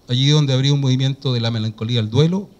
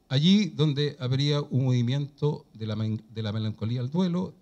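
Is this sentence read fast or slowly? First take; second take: fast; slowly. First: The sentence is read quickly with little articulation. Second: The sentence is read slowly with clear articulation. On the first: The speaker calls it wrong. "estás hablando muy rápido" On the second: The speaker calls it right. "Un poco más lento"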